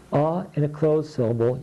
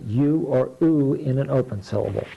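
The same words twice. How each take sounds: First: "A" said as "uh", the vowel in up; short U. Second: "U" said as "you", then "oo" as in flute; long U. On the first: Teacher models the closed syllable sound, "A" as short "uh". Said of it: "put the short vowels in here". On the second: Teacher models the open syllable sounds, long "U" or "oo". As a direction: say "U" as you, or "oo" as in soup. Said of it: "the sound O in an open syllable". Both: Shown as a demonstration.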